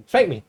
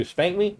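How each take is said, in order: First: "Spank me." higher, falling at the end; defiant command. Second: "Spank me?" higher, rising at the end; defiant question. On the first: Cocky teen daring his dad, falling command on "me". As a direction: drop "me" as a flat-out dare. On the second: Cocky teen daring his dad, rising taunt on "me". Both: Retold or imitated.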